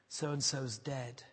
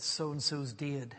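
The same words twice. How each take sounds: First: Said in the usual way. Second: Drawn-out Batley vowel on "dead"; Batley accent. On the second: Retold or imitated. Lad breaking the news to his teacher, in a Batley accent. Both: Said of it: "how he said it in the Batley accent".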